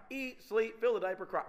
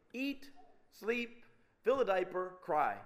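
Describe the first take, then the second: First: Quick run with no gaps; brisk, run-together repetition; rattled-off list. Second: Each step set apart by pauses; measured list with deliberate gaps; spaced-out list. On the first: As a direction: reel off the routine like an endless loop. Repeats cycle as an endless loop. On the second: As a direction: lay out the routine item by item. Lists the cycle, then repeats it. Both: Shown as a demonstration.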